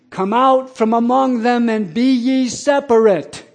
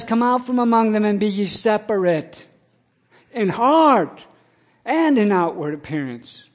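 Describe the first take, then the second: First: Loud, high, slow proclamation, as on the sidewalk; cried out scripture. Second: Raised, loud preaching voice. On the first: Retold or imitated. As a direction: call the verse out to the crowd, stretched and ringing. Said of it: "And I cried out". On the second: Acted. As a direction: press the verse on the listeners. Preaching the verse to listeners.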